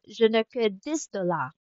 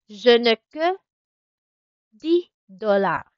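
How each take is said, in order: First: Dix is said with its final s sound. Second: Dix is said without its final s sound. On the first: This is the standard way to say it. "you could use rin naman yung proper, which is yung this" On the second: This is the way locals say it. "bakit ko siya sinabing di, hindi this?"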